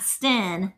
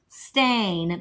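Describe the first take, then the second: First: The vowel is short, like in 'pen'. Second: The vowel is long, like in 'rain'. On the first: The speaker calls it wrong. "not Sten" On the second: The speaker calls it right.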